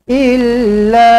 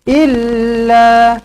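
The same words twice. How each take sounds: The two takes are said the same way.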